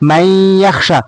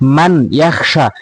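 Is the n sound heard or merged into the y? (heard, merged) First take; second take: merged; heard. First: The n merges into the following nasal y. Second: A clear n is sounded before the y. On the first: The speaker calls it right. "কিন্তু হবে কি মাই ইয়াখশা" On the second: The speaker calls it wrong. "অধিকাংশ লোক না বুঝে বলবে"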